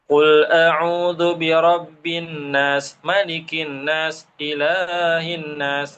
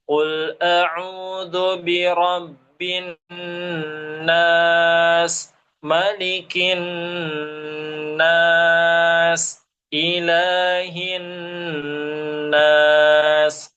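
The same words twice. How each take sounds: First: Letters and their qualities are articulated inaccurately. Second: Letters and their qualities are articulated accurately. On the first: The meaning is not conveyed properly. The speaker calls it wrong. "itu kan salah gitu ya" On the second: The meaning is conveyed completely. The speaker calls it right. "hurufnya pas, sifatnya ada, kaidah tajwidnya betul"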